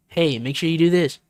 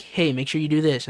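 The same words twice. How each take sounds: First: A bit louder the second time; repeated louder. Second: Said in the usual way. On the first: Retold or imitated. Friend repeating a request, a touch louder. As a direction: raise it so they hear you. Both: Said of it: "And then they say it louder".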